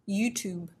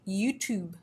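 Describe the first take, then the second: Both takes have the same delivery.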